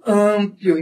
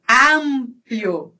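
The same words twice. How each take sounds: First: "amplo" with nasal first vowel; Portuguese nasal vowel. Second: "amplio" slow, with open a; Spanish open vowel. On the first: Teacher showing what to avoid, nasal a. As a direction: send the a of "amplo" through the nose. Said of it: "Em português, eu falo pelo nariz". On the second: Teacher showing Spanish, slow open a. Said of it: "eu falo tudo aberto". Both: Shown as a demonstration.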